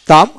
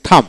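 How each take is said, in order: First: টাম with unaspirated T; no puff on the T of টাম; hard T. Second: থাম with a puff of air on T; phonetic aspirated T. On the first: Teacher reads the word for learners, টাম with hard T. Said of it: "ফোনেটিক্সে থাম". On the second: Teacher gives phonetic form to learners, থাম aspirated. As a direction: breathe out on the T of থাম. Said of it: "ফোনেটিক্সে". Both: Shown as a demonstration.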